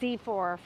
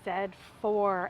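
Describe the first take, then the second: First: The letter Z is said as zee. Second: The letter Z is said as zed.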